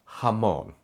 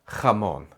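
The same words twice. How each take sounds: The two takes are said the same way.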